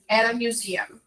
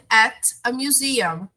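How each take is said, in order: First: The T links softly into the next vowel. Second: The words are said separately with small pauses. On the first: "ele vai parecer a nossa letra R em português" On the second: "Você pode falar assim pausadinho"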